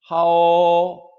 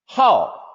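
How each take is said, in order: First: The pitch stays high and level. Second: The pitch falls sharply from high.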